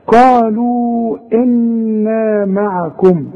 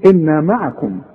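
First: Slow chanted قالوا إنا معكم; tajweed recitation; Quran recitation. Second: Said in the usual way. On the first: Shown as a demonstration. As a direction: recite it slowly with ghunna on إنا. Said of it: "لازم تقول قالوا إنا معكم". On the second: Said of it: "ما تبدأش وتقول إنا معكم".

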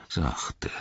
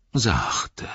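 First: Whispered Sachte. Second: Sachte said higher with a falling tune; higher repeat. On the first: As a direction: breathe Sachte softly as a whisper. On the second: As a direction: raise the repeated sachte and let it fall. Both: Acted. Ent repeats his calming word.

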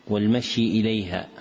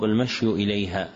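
First: والمشي ending in "i", "wal-mashyi"; final kasra. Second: والمشي ending in "u", "wal-mashyu"; final damma. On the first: Teacher citing a misprint, والمشي with a final "i". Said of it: "هكذا وقع بالكسر". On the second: Teacher correcting the misprint, والمشي with a final "u". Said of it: "والصواب". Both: Shown as a demonstration.

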